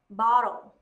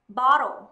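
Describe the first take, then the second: Both takes have the same delivery.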